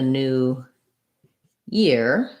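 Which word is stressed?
year. The stress falls on the word year. New is only an adjective describing the year. "Year gets the primary stress"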